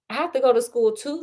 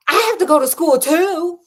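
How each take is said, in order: First: Said in the usual way. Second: Higher and louder, snappish retort; snapped. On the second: Shown as a demonstration. Host redoing the snapped line, higher and louder. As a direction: bite the line back at him. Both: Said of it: "let me do it better".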